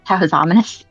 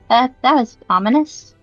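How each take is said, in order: First: It is said in the speaker's natural voice. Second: It is said in Poppet's character voice.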